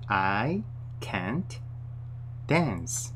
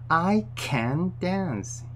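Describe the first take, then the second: First: It is said precisely; the t is clearly heard. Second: It is said quickly; the t is barely heard. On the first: "정확히 발음하려면" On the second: "빨리 이야기를 할 때는 잘안 들릴 수가 있습니다. ... 이렇게 거의 안 들릴 수가 있어요"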